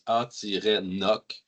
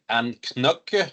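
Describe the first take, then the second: First: The middle c is silent: a-noc. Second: A k sound is said in the middle. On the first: The speaker calls it right. "pronounce A-Noc" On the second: The speaker calls it wrong. "ne pas prononcer Anknock"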